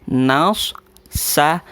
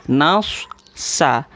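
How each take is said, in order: The two takes are said the same way.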